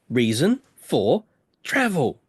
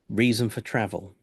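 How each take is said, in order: First: It is said slowly and shouted. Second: It is said at normal pace and volume.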